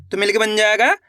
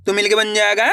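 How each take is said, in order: Both takes have the same delivery.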